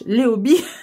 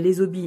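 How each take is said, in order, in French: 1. Aucun son z ne fait la liaison entre les et hobbies. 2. Un son z fait la liaison entre les et hobbies. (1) "on ne fait pas la liaison, il y a un H" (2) "non Rachel, on ne fait pas la liaison"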